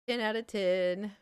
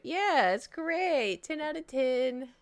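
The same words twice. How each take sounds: First: Said in the usual way. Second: Drawn-out, higher mock praise; slow, sing-song fake enthusiasm; sarcastic. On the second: Rating the gross trip to chat, mock-cheerful and slow.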